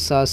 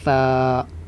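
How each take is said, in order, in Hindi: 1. यह plain s आवाज़ से शुरू होता है। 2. यह th आवाज़ से शुरू होता है, ज़बान दांतों के बीच। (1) "ना ही सा से सपेरे वाला सा है" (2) "ज़बान के नोक को ऊपर वाले आगे के दो दांतों के नोक में लगाएंगे"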